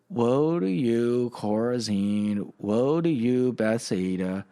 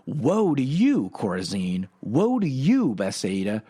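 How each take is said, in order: First: It is said in a calm, flat way. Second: It is said loudly with strong force.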